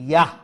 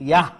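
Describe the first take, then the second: Both takes have the same delivery.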